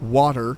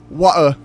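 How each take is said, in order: First: The final r sound is clearly pronounced. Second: The r is dropped, ending in an a sound.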